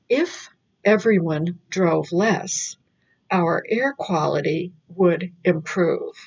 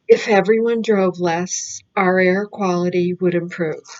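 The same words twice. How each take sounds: First: Each word is said separately, not linked. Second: The words are linked smoothly together. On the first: "not linking" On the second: "Let's read it as if it were linking"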